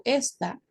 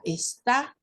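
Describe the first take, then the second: First: "esta" with the weight on the first syllable, ES-ta; esta, stressed on es. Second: "está" with the weight on the last syllable, es-TA; está, stressed on ta. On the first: Teacher contrasting esta with está, stress on ES. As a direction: say "esta" leaning on ES, unaccented. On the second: Teacher showing the accented verb está, stress on TA. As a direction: hit the TA of "está" clearly. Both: Shown as a demonstration. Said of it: "y que tiene que ser acentuada en la sílaba ta".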